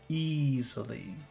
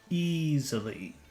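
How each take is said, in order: Both takes have the same delivery.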